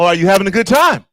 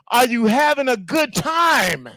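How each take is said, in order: First: It is asked calmly, without much push. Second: It is asked loudly, with much more energy.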